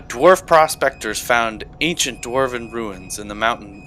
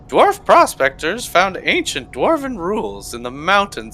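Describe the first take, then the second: First: It is read in the speaker's normal voice. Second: It is read in a put-on character voice.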